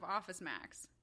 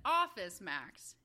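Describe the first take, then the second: First: Office Max with the weight landing on Max; usual stress on Max. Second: OFFICE Max, weight on Office, Max thrown away; wrong front stress. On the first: Showing co-host the normal way, stress on Max. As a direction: go light on Office, land on Max. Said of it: "instead of Office Max". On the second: Finding another example for co-host, stress on Office. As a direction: punch Office, drop Max. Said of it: "Let's find another". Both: Shown as a demonstration.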